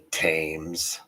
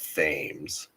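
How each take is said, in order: First: The word begins with a plain T sound. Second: The word begins with a TH sound. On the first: "At least he had the t sound right" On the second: "he wasn't saying Thames"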